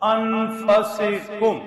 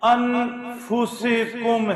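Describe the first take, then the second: First: The vowel after the f is a. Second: The vowel after the f is u. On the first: "فا کے اوپر زبر" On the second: "فا کے اوپر پیش"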